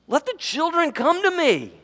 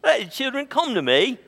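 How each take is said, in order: First: It is said in an indignant, stern manner. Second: It is said in a relaxed, easy manner.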